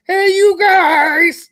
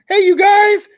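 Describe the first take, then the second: First: Very slow, stretched puppet call; high frog holler, every word dragged long; drawn-out holler. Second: Puppet-voiced holler to the crowd; high, loud frog-puppet hail; calling out. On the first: Acted. Puppet host hailing friends in the chat, long drawn-out call. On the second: Puppet host hailing friends in the chat, hollering.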